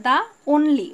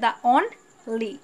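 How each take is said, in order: First: Said in the usual way. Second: "the only" with a clear gap splitting on and ly; very slow "only", pulled apart into two syllables; split into syllables. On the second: Shown as a demonstration. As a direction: break "only" in two, slowly: on, pause, ly. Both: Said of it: "only-কে ভাঙা যায়".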